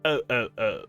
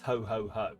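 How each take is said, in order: First: The H sound is dropped, in a French accent. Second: The H sound is pronounced at each word's start. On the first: "in a French accent would be" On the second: "He only says ho ho ho"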